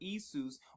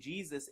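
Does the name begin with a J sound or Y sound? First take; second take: Y sound; J sound. First: The name begins with a Y sound. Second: The name begins with a J sound. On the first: This is the original spelling with I. "it says it with an I, or Isus" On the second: This is the later spelling with J. "instead of saying Jesus"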